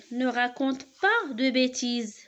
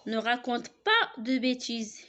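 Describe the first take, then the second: First: Slow, louder order; a firm teacher's command; command read aloud. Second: Said in the usual way. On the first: Shown as a demonstration. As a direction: tell them off firmly, slowly. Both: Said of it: "qui donne un ordre".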